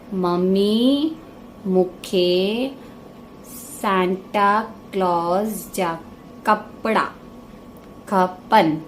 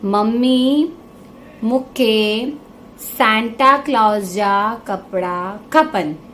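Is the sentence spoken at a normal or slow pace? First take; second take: slow; normal. First: The sentence is spoken slowly and deliberately. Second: The sentence is spoken at a normal pace.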